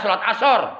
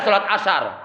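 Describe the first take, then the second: First: The middle syllable is said with a heavy 'so'. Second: The middle syllable is said with a plain 'sa'. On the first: The speaker calls it right. "yang ada salat asar" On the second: The speaker calls it wrong. "nggak ada salat asar"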